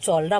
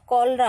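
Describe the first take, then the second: First: The word begins with a ch sound. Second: The word begins with a k sound. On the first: The speaker calls it wrong. "इसको चौलरा मत पढ़िएगा" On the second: The speaker calls it right. "कॉलरा होता है"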